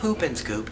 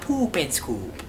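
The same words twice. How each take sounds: First: It is said in a plain, neutral accent. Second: It is said in a Minnesota accent. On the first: The speaker calls it wrong. "it's not a poop and scoop" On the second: The speaker calls it right. "You say it with a Minnesota accent"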